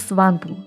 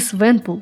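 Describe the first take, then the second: First: The name begins 'swan' and has two syllables. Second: The name begins 'swen' and has two syllables. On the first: "не Сванпул" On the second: "Не Свенпул"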